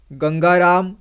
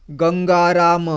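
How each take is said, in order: Both takes have the same delivery.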